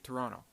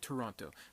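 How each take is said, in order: First: It is said in a Canadian way. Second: It is said in a non-Canadian way. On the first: The speaker sounds like a real local. The speaker calls it right. "they say Toronto" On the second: The speaker is not really from Canada. The speaker calls it wrong. "Canadians don't say Toronto"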